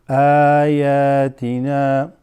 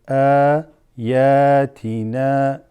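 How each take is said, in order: No difference in how they are said.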